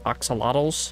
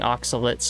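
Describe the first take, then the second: First: The word ends with a 'lottles' sound. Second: The word ends with a 'lates' sound. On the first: The speaker calls it wrong. "not oxalotls" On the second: The speaker calls it right. "I'm saying oxalates"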